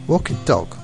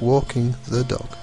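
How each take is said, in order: First: 'The' is reduced to a short t sound. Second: 'The' is said in full. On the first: "Sometimes it is shortened to T" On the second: "instead of walking the dog"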